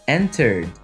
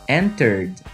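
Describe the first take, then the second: Both takes have the same delivery.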